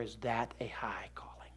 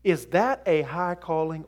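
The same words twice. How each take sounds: First: Hushed, slow, breathy echo of the question; whispered repeat. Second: Said in the usual way. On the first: Shown as a demonstration. Preacher repeating his question to the congregation in a slow whisper. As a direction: drop to a whisper to drive it home. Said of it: "rhetorical repeat, whispered". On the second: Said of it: "rhetorical repeat, second whispered".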